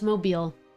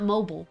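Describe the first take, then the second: First: It is said like the Alabama city name. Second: It is said like the everyday word mobile. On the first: The speaker calls it right. "It's Mobile. Because it's Mobile, Alabama" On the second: The speaker calls it wrong. "It's not mobile"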